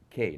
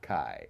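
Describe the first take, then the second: First: The vowel sounds like 'kay'. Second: The vowel sounds like 'kye'. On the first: The speaker calls it right. "it's Kei" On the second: The speaker calls it wrong. "not Kai, As most people want to pronounce it"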